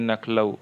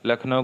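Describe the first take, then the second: First: It begins with n, with l in the middle. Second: It begins with l, with n in the middle. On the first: The speaker calls it wrong. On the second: The speaker calls it right.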